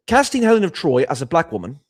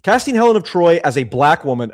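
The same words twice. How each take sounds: First: Higher, louder mock British accent. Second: Said in the usual way. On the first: Streamer reading a donor's message, British accent. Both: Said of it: "I'll do it in a British accent".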